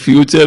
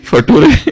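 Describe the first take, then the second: First: It is said as fyoo-cher, with a ch sound. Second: It is said as fa-too-ray, with a plain t. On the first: The speaker calls it right. "वो फ्यूचर है" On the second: The speaker calls it wrong. "वो नटूरे और फटूरे नहीं है"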